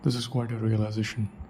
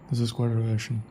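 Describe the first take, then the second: First: Every syllable of the long word is pronounced. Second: Syllables of the long word are swallowed.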